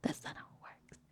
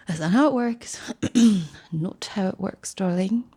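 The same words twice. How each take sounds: First: Unvoiced whisper. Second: Arch put-on voice. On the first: Comic correcting herself in a hushed whisper. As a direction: breathe it as a secret. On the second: Comic scolding her younger self, arch and condescending. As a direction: talk down to her, darling. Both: Shown as a demonstration. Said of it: "repeated in different voices".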